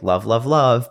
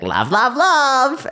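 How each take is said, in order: First: It is said in a plain voice. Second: It is said in an obnoxious put-on voice.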